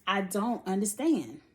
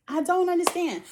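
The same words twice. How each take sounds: First: Said in the usual way. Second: Higher, louder I don't understand; exasperated. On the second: Real, not acted. Vlogger venting about Josh, exasperated and high. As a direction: throw up your hands in disbelief. Repeats her confusion, exasperated.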